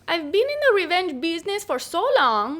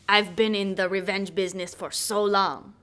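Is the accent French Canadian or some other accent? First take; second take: French Canadian; other. First: It is spoken in a French Canadian accent. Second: It is spoken in a non-French-Canadian character accent.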